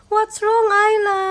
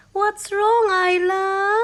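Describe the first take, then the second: First: Higher coaxing. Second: Coaxing. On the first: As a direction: coax her a touch louder. Asking baby again, higher. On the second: Asking baby twice. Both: Real, not acted.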